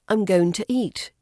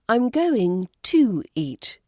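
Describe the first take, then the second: First: The word 'to' has a weak, reduced vowel. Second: The word 'to' has a full 'two' vowel. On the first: The speaker calls it right. "It was B" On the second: The speaker calls it wrong. "To spelt T W O, as you would the number"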